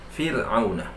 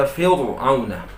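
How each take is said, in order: First: Fir'auna with a light, thin r, said softer; correct thin ra. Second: Fir'auna with a thick, heavy r, the wrong way. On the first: Teacher gives the correct reading, soft thin ra. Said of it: "tapi Fir'auna". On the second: Teacher shows the wrong reading, thick heavy ra. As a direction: show the mistake: Fir'auna with a full heavy ra. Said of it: "Tak boleh dibaca Fir'auna". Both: Shown as a demonstration.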